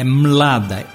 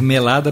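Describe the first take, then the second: First: The M and L are said together, no vowel. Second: A vowel is inserted between the M and L. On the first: The speaker calls it right. "É Mlada" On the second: The speaker calls it wrong. "Não pode ser melada porque ficaria feio"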